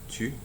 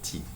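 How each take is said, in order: First: The vowel is a rounded French 'u' sound. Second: The vowel is an unrounded 'ee' sound. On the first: "most French speakers would say tu" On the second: "a good number who would actually pronounce it as T"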